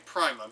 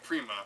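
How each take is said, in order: First: The first syllable sounds like 'pry'. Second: The first syllable sounds like 'pree'. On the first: "it could very easily be Prima, because it's spelled exactly the same way as Prime" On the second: "I usually say Prima"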